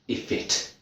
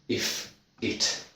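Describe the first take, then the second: First: The f sound links into the second word. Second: The two words are said separately. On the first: The speaker calls it right. "this F moves" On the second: The speaker calls it wrong. "So not if it, no, no, no"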